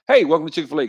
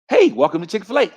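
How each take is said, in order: First: The greeting is plain, flat and without much inflection. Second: The greeting is bright, lively and full of inflection. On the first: It is how the speaker himself would normally talk. "That's how I would talk" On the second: It is how a cheerful fast-food worker greets customers. "See how see how that's it"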